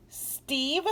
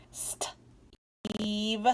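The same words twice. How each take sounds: First: Steve said higher with a rise; voiced, rising. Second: Steve whispered. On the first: Teacher saying Steve after whispering it. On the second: Teacher whispering Steve to the class. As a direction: breathe Steve softly. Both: Shown as a demonstration. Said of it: "the long E says E".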